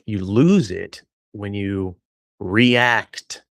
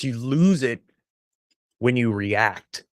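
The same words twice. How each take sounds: First: The word 'react' sounds suggestive and drawn out. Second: The word 'react' sounds plain and neutral. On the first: The speaker calls it wrong. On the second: The speaker calls it right.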